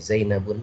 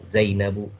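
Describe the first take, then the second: First: The word ends in an added n sound. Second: The word ends in a plain u vowel. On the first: The speaker calls it right. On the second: The speaker calls it wrong. "tidak boleh"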